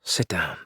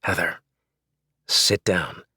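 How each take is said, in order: First: Low, soft and firm; husband calming angry wife, soft and low; soft firm command. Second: Firm and level, no raised voice; husband ordering wife to sit, quietly firm; quiet authority. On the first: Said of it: "my voice growing softer". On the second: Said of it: "mustered all the authority ... without raising my voice". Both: Acted.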